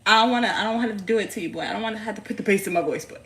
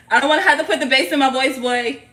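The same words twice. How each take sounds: First: Lightly scolding mother, quick pace; mild big-mommy warning. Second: Loud, higher, quick playful scolding; big mommy voice. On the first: Mother warning her boy off her stuff, mild big-mommy voice. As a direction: playfully threaten the child, hurried. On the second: Mother warning her boy off her stuff, loud big-mommy voice. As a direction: warn the child in full mommy voice. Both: Pretend. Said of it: "put on my big mommy voice".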